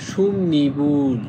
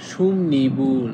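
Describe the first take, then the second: The two takes are said the same way.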